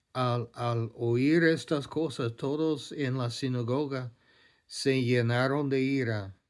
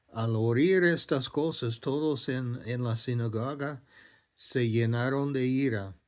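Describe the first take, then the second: Both takes have the same delivery.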